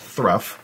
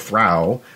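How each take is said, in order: First: The word ends with an uff sound. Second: The word ends with an oh vowel. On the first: "isn't pronounced thruff" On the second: "isn't pronounced ... throw"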